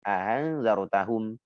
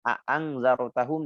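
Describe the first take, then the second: First: The second glottal stop is softened and eased. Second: The second glottal stop is pronounced fully.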